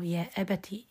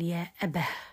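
First: The word ends with a t sound. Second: The word ends with an h sound. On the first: The word runs on into the next words. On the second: The reciter stops on this word.

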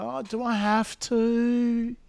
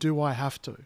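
First: It is said in a whiny, complaining tone. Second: It is said as a plain, neutral question.

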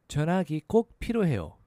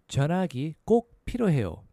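No difference in how they are said.

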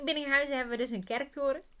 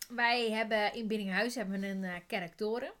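First: Every sound in the word comes out clearly. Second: A sound in the word comes out garbled. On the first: The speaker calls it right. "zo zeg je het goed" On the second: The speaker calls it wrong. "daar zit even een articulatiefoutje"

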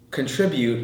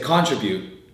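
First: The stress is on the second syllable. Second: The stress is on the first syllable. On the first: This is how most local speakers say it. "instead of contribute" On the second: This is how a Filipino speaker says it. "I say contribute. ... we've emphasized the first syllable, it's not the second syllable"

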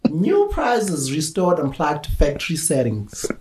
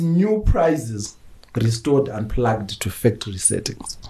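First: It is read with a put-on accent. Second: It is read in the speaker's ordinary voice.

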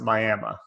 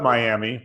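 First: The name is said in its local form. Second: The name is said in its common form. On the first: This is how the locals say the name. "but they pronounce it Miami" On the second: This is how the name is written. "they spell it Miami"

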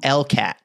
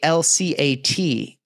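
First: It is read as a single word. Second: Each letter is named separately. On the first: The speaker calls it wrong. "you don't say LCAT" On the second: The speaker calls it right. "But you say LCAT"

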